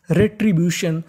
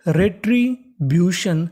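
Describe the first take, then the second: First: Said in the usual way. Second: retribution drawn out slowly, syllable by syllable; slow model word. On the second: Shown as a demonstration. Teacher modelling the assembled word slowly for students. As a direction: stretch retribution so students catch every sound. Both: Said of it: "तो meaning बन गई".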